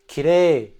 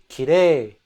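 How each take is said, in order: Both takes have the same delivery.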